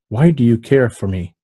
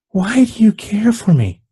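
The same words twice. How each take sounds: First: It is read flatly, with little expression. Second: It is acted in a put-on female voice. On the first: The speaker calls it wrong. "This is just doing a read" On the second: The speaker calls it right. "let's see if I can do a female voice"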